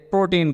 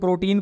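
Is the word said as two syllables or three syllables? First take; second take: three syllables; two syllables. First: It is said with a separate final 'an' syllable. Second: It is said like the everyday word 'protein'. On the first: The speaker calls it right. "इसे प्रोटीन कहा जाता है" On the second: The speaker calls it wrong. "कुछ लोग इसको प्रोटीन पढ़ रहे होंगे, बिल्कुल ये प्रोटीन शेक जो जिम जाने वाले लेते हैं वो नहीं है"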